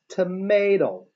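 It is said with an American pronunciation. "I use the tomato, because I follow the American pronunciation"

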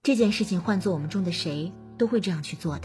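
It sounds warm and comforting to a friend.

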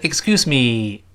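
The word me is full and strongly stressed. The speaker calls it wrong. "而不是excuse me，不这么读了"

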